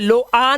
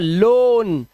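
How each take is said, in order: First: The vowel is split into o then a. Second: The vowel is a single long o sound. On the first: The speaker calls it wrong. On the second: The speaker calls it right.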